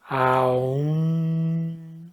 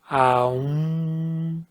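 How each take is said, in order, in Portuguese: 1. A vogal desliza de a para u. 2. A vogal desliza de a para u.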